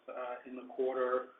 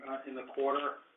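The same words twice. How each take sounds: The two takes are said the same way.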